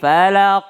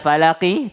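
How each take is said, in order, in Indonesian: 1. Kata ini berakhir dengan konsonan. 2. Kata ini berakhir dengan vokal pendek. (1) "kalau berhenti falaq" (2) "Aslinya falaqi"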